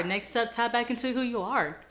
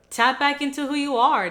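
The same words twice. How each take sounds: First: Said in the usual way. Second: Loud, higher rallying push; rally them to tap back in; pep-talk shout to the viewers; emphatic call. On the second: Real, not acted.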